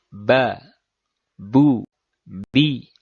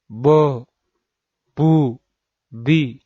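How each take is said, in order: First: The syllables sound light, with the tongue kept low. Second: The syllables sound heavy, with the tongue raised back. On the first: The speaker calls it right. "Intinya dia tidak tebal" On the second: The speaker calls it wrong. "Tidak bo, bu, bi"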